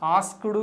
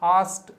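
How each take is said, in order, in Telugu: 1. k శబ్దం స్పష్టంగా పలకబడింది. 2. k శబ్దం పలకలేదు. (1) "ఆస్క్డ్ కాదు అది" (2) "ఆస్ట్ అని పలకాలి, కే పలకకండి"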